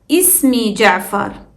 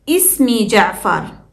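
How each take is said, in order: No difference in how they are said.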